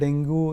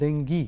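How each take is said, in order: First: The word ends in an 'oo' sound. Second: The word ends in an 'ee' sound. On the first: The speaker calls it wrong. "पयलीं आमी ताका डेंगू नाजाल्यार डेंग्यू म्हणटाले" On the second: The speaker calls it right. "Correct pronunciation is डेंगी double ई"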